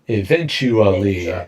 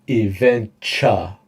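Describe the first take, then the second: First: The word is said with all five syllables. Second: The word is squeezed into four syllables. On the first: "Eventually じゃなくて" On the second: "Mike doesn't do five"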